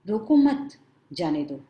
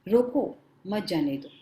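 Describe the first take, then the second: First: The pause comes right after 'mat'. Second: The pause comes right after 'roko'. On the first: Do not stop him, let him go. "गलती से police ने बोला होता रोको मत, जाने दो" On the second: Stop him, do not let him go. "रोको, मत जाने दो मतलब पुलिस बोल रहा है कि अरे उस चोर को पकड़ लो"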